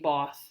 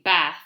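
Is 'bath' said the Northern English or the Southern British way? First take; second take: Southern British; Northern English. First: It is said with a Southern British vowel. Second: It is said with a Northern English vowel. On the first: "the British English we speak, which is the Southern um, English, we say bath" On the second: "like in Northern England or in America, they say bath"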